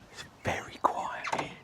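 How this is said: It is whispered.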